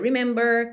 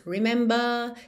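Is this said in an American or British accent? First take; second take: American; British. First: The final R is pronounced with a curled tongue. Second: The final R is dropped and the vowel lengthened. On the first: "o inglês americano tende a fazer esse R mais enrolado" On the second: "o inglês britânico tende a não enrolar a língua e alongar um pouco a vogal anterior"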